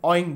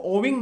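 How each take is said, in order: First: Owing said as oy-ing, no w sound; Owing glides o into ing, no w; correct pronunciation. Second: Owing with a w sound, oh-wing; owing with a clear w glide, oh-wing; wrong pronunciation. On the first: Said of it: "क्या बोले? Owing बोलेंगे". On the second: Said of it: "इसको owing नहीं बोले". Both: Shown as a demonstration.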